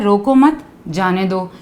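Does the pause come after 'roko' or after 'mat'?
after mat. The pause comes after the second word. Do not stop the person; let them go. "कि किसी इंसान को रोको मत, उसको जाने दो।"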